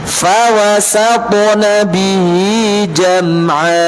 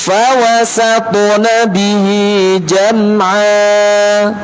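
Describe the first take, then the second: Both takes have the same delivery.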